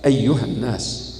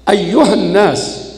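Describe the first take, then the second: First: It is said in a soft, low voice. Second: It is said in a medium, moderate voice. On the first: "هذا المستوى المنخفض" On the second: "هذا مستوى أقل"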